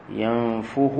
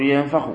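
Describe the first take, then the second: First: ينفخ said yanfukhu with a damma on the fāʾ; ينفخ with u before the khāʾ; correct form. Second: ينفخ said yanfakh with a fatha on the fāʾ; ينفخ with an open a before the khāʾ; wrong form. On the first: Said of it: "وكما تقول نفخ". (ينفخ بضم الفاء) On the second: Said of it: "لا تقول ينفخ". (ينفخ بفتح الفاء) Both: Shown as a demonstration.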